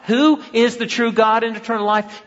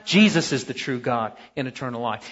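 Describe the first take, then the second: First: High, ringing question with "Who" punched; raised voice, "Who" stressed and set apart; rhetorical question. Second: Low, softer answer led by "Jesus"; lowered voice, "Jesus" stressed as the answer; settled answer. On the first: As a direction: put the question to the room, leaning on "Who". Rhetorical question before its answer. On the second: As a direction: answer firmly, dropping down after "Jesus". Answers own rhetorical question. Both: Real, not acted.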